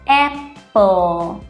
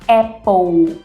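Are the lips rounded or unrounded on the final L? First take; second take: unrounded; rounded. First: The final L is said with unrounded lips. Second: The final L is said with rounded lips. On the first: The speaker calls it right. "Eu não preciso fazer o bico" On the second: The speaker calls it wrong. "não é apple"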